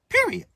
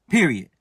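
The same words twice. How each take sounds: First: Emphatic high period. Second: Said in the usual way. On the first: Acted. Preacher emphatic declaration.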